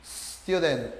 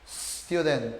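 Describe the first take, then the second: First: It begins directly with a hissing s. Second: The same.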